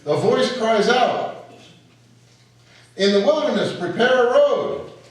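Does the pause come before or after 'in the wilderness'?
before. The pause falls before 'in the wilderness'.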